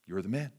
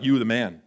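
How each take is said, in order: First: Low, soft and grave; quiet accusation. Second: Breezy compliment, like a pat on the back; casual praise. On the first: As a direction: say it quietly, with weight. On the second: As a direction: toss it off as praise. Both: Shown as a demonstration. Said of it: "Not in, like, "You the man" way".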